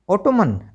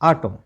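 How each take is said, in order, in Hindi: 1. अंत में N की ध्वनि बोली जाती है। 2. अंत में N की ध्वनि नहीं बोली जाती है। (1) "नो" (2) "क्योंकि एन साइलेंट है"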